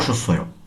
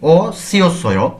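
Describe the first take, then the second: First: The word is said with syllables merged together. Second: The word is said in full, syllable by syllable. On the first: "এটির নেটিভ উচ্চারণ আমরা করব" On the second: "যদিও আমরা এখানে কি দেখছি"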